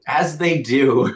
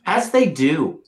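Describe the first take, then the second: First: Very slow, stretched words; drawn out slowly. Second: Said in the usual way. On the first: Shown as a demonstration. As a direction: stretch each word out knowingly.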